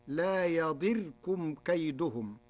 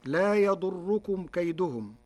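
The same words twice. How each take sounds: First: "يضركم" as ya-DIR-kum, short i and single r; kasra and sukun. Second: Said in the usual way. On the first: Shown as a demonstration. Teacher showing Warsh's reading, "يضركم" said yadirkum. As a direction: say "يضركم" with i after the dad and a vowelless ra. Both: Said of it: "بكسر الضاد وسكون".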